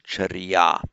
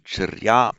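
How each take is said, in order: First: Charya with an i between r and y; Pali inserted vowel. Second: Charya with r and y joined; Sanskrit pronunciation. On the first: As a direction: say charya as cha-ri-ya. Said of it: "this inserted e". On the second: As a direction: say Charya as two syllables, char-YA. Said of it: "that's the Sanskrit way of pu-, putting it". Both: Shown as a demonstration.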